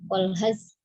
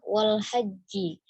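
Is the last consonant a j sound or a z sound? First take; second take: z; j. First: The word is said with a z sound. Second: The word is said with a j sound. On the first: The speaker calls it wrong. "seperti zai seperti itu ya" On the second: The speaker calls it right. "Haji itu ha dan jim ya"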